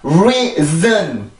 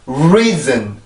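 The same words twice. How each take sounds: First: Both syllables are strong, with two big beats. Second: Only the first syllable is strong; the second is light. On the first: The speaker calls it wrong. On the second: The speaker calls it right.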